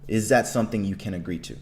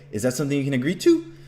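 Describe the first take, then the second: First: The pitch stays level to the end. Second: The pitch rises toward the end. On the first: The speaker sounds confident and authoritative. The speaker calls it right. "See how my my tone stays the same way" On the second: The speaker lacks confidence. The speaker calls it wrong. "than if you say"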